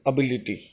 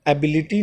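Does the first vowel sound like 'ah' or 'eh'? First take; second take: ah; eh. First: The word begins with an 'ah' vowel. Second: The word begins with an 'eh' vowel. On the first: The speaker calls it right. "अ से शुरू होता है" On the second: The speaker calls it wrong. "एबिलिटी नहीं होता"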